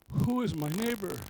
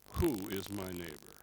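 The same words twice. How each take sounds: First: It is asked as a simple, sincere question. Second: It is asked in a narrow, evasive, lawyerly tone. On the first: The asker genuinely wants to know. The speaker calls it wrong. "It's not" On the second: The asker wants to limit his obligation. The speaker calls it right. "I know that tone of voice. ... Let's narrow this down"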